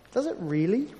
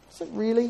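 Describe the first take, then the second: First: "Does it really?" asked once, mildly doubtful; first mild query from a sceptical listener; doubtful question. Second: "Does it really?" repeated higher, more disbelieving; more incredulous repeat. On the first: Listener doubting the preacher, mild questioning. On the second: Listener doubting the preacher, incredulous repeat. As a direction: push the doubt further the second time. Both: Pretend. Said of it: "you might be thinking to yourself".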